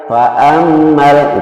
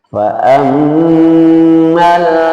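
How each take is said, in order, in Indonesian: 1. Huruf mim ganda dibaca pendek tanpa dengung hidung. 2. Huruf mim ganda ditahan dengan dengung hidung. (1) "kalau tasdid saja fa'ammal fa'ammal itu hanya tas tasdid saja" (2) "harus di, didengungkan di rongga hidung. Jadi cara bacanya"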